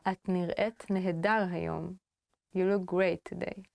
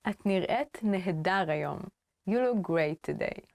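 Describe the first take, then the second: No difference in how they are said.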